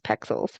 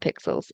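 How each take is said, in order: First: The first vowel sounds like in 'peck'. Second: The first vowel sounds like in 'pick'. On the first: The speaker calls it right. "it's pexels" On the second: The speaker calls it wrong. "It's not pixels"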